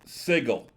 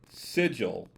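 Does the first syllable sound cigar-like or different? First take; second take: cigar-like; different. First: The first syllable sounds like the start of cigar. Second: The first syllable does not sound like cigar. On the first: The speaker calls it right. "properly pronounced Sigil, with the first syllable sounding like the beginning of cigar" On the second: The speaker calls it wrong. "if you pronounce the city name as Sigil, your will probably make no friends"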